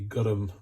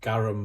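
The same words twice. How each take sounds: First: The vowel sounds like a U. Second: The vowel sounds like an A. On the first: The speaker calls it right. "like with a U" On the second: The speaker calls it wrong. "as a lot of people pronounce it"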